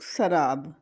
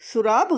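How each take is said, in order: First: The first vowel is an 'a' sound. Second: The first vowel is an 'u' sound. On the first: The speaker calls it right. "सीन के ऊपर पेश की बजाय जबर है" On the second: The speaker calls it wrong. "सुराब गलत है, सीन के ऊपर पेश नहीं है"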